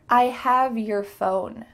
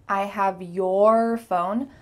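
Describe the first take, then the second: First: The word 'your' is quick with a reduced vowel. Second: The word 'your' is slow with its full vowel.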